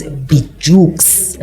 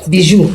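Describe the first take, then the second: First: Bijux said as written, ending in a sounded "ks"; anglicised pronunciation. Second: Bijou said "bee-zhoo", with a silent ending; French pronunciation. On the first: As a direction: say Bijux slowly, with the final x heard. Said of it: "I hope I'm pronouncing it correctly". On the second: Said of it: "it's a French word". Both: Shown as a demonstration.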